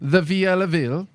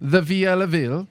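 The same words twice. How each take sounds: First: It is said in an Italian accent. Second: The same.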